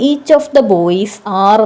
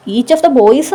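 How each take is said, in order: First: Said in the usual way. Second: Put-on each of the boys said slowly, pitched higher, each word spaced; correct form stressed. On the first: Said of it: "എന്ന് വരില്ല". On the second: Shown as a demonstration. Teacher gives students the right form, slow and raised. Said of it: "എന്ന് വരും".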